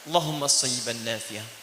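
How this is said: It is said humbly, with strong pleading feeling. The words carry humility and strong hope. The speaker calls it right. "rendahkan diri Anda. Berharap dengan kuat"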